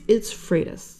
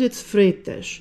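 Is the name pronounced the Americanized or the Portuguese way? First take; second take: Americanized; Portuguese. First: The name is said with Americanized English sounds. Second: The name is said with Portuguese sounds. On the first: This is how it is said in the United States. "In the United States" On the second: This is how it is said on the island. "On the island"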